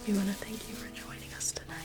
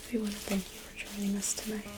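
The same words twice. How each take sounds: The two takes are said the same way.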